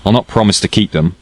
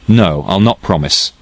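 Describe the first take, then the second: First: Said in the usual way. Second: Slower, each word of No, I'll not promise set down firmly; firm repeat. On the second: A narrator's reading. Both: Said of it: "I repeated".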